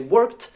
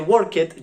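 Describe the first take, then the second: First: The ending joins the word as one syllable. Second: The ending is said as an extra syllable. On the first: The speaker calls it right. "you say worked" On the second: The speaker calls it wrong. "You don't say work it"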